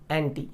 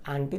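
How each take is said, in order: First: 'एंटी' with a front 'e' at the start; सही उच्चारण 'एंटी'. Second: 'आंटी' with an open 'aa' at the start; गलत उच्चारण 'आंटी'. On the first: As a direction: say 'एंटी', opening on 'e', not 'aa'. ('एंटी', शुरू में 'ए' की आवाज़) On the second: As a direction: say 'आंटी', first vowel as in 'aam'. ('आंटी', शुरू में खुला 'आ') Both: Shown as a demonstration. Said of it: "आंटी नहीं, एंटी".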